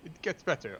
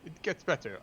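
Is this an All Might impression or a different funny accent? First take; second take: All Might; All Might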